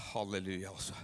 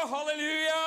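First: Halleluja, low and soft. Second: Halleluja, high and loud; shouted halleluja. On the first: Pastor calming himself after getting excited, soft and low. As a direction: turn yourself down on halleluja. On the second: Pastor cheering the praying crowd, loud shout. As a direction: let the halleluja ring out. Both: Real, not acted. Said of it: "bare skru meg ned".

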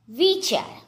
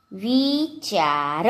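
First: Said in the usual way. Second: વિચાર drawn out, rising at the end; slow word demonstration. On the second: Shown as a demonstration. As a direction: say વિચાર very slowly by syllables. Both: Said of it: "જોડણી પર ધ્યાન આપજો".

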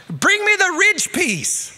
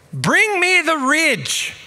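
First: Even higher, louder, exasperated call, dragging; louder shouted order. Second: Much higher, louder, slow call up from a roof; shouted order. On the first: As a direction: yell it again, losing patience. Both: Retold or imitated. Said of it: "he shouted out to me".

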